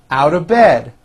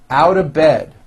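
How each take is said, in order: The two takes are said the same way.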